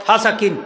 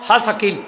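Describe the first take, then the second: The two takes are said the same way.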